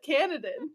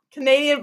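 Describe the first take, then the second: First: Canadan said as CAN-a-dan, no i sound; Canadan, like Canada plus n; mispronounced Canadian. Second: Canadian said ca-NAY-dee-an; Canadian with the long ay stress; correct Canadian. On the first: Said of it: "I almost said Canadan". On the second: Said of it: "like a Ca-, Canadian, but Canada". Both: Shown as a demonstration.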